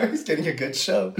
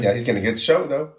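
First: High, giggling repeat of the joke; laughing. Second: Said in the usual way. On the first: Real, not acted. Joking about the spirit watching him, laughing. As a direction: say it while cracking up.

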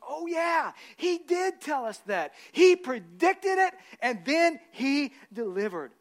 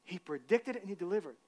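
First: High and loud, slow, dawning realization; excited realization. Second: Said in the usual way. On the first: Acted. Women at the tomb remembering, high, slow and excited. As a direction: stretch it out as it dawns on them.

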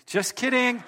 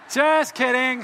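First: High-pitched jokey backtrack; quick raised-pitch "just kidding"; playful retraction. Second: Loud, high jokey exclamation; big, raised "just kidding" over the crowd; emphatic playful retraction. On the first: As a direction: call off the joke brightly. Joking about the offering. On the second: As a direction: belt out the joke disclaimer. Repeats the joke retraction louder. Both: Real, not acted.

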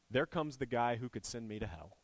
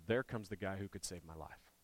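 First: Said in the usual way. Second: Softer, hoping under the breath; a softly hoping tax collector; hopeful hush. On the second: Retold or imitated. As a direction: say it like a quiet hope of rescue. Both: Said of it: "probably thought one of two things".

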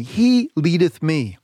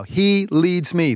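First: "He" stressed, words drawn out slowly; slow call to repeat. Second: "He" stressed, each word drawn out slowly; slow call to repeat. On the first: Preacher asking his listeners to say it with him, slow and stressed. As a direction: lead the congregation through it word by word. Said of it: "Say it with me". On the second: Preacher getting listeners to say three words with him, slow. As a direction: lead them through the three words slowly. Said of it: "Say those three words with me right now". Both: Shown as a demonstration.

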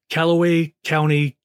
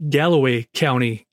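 First: "Callaway County" said with a hard K at the start, the wrong name; mispronounced name. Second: "Galloway County" said with a G at the start, the corrected name. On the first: Host misreads a listener's county as "Callaway County" with a K. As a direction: say "Callaway" with a K sound, "Kal-a-way", a misreading. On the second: Host corrects his misreading to "Galloway County" with a G. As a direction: fix it to "Galloway" with a G sound, "Gal-o-way". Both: Real, not acted. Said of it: "Or sorry, sorry".

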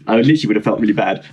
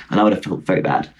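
First: Said in the usual way. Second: Low, deadpan sincerity; sarcastic-sounding. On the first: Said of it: "that sounded so sarcastic, but I was". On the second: Real, not acted. Adding a regret to the pensioners story, sounding sarcastic. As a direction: lower the voice, accidentally sarcastic. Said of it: "that sounded so sarcastic".

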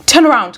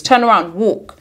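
First: Louder, higher sharp order; commanding. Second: Said in the usual way. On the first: A narrator's reading. Travis ordering Eccles to the machine, commanding. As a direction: command him to turn back. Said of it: "commanded Travis".

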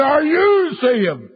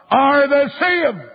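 First: Very high holler, stretched right out; retold louder shout. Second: High, drawn-out preacher's holler; retold shout. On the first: Evangelist repeating his question to the preacher, imitated drawn-out bigger shout. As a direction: shout it higher, dragging out YOU. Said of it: "I shout it louder". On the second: Evangelist shouting in a preacher's ear, imitated high shout. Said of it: "I shouted in his lug".

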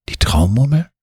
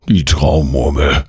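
First: High rising question on Traumurmel. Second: Grumbled Traumurmel, no questioning rise; disappointed growl. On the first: Child asking cat and gnome about the marble, questioning. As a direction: ask Traumurmel with the pitch climbing right to the end. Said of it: "fragst du". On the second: Gnome hearing his promised marble is missing, disappointed growl. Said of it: "grollt der Waldschrat enttäuscht". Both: A narrator's reading.

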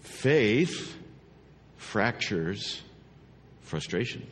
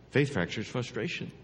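First: Word by word. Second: Said in the usual way. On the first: Shown as a demonstration. Preacher delivers the key phrase, word by word.

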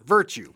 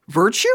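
First: "virtue" falling as a firm statement; final answer. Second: "Virtue" rising as a question; tentative guess. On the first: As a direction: drop the end of "virtue", committing to it. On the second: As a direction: lift the end of "Virtue", unsure of the answer. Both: Pretend.

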